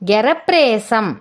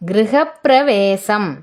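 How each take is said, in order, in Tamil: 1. சொல் சுருக்கப்பட்டுள்ளது, சில அசைகள் விடப்பட்டுள்ளன. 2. சொல் ஒவ்வொரு அசையுடனும் சொல்லப்பட்டுள்ளது.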